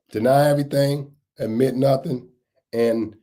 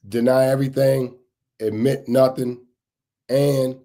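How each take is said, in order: Both takes have the same delivery.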